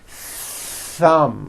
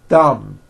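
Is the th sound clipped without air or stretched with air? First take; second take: stretched; clipped. First: The th is held long with audible air friction. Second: The th is brief with no audible air friction. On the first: The speaker calls it right. "You must stretch out the th sound and hear the air friction" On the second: The speaker calls it wrong. "there was never any air friction. That's not good"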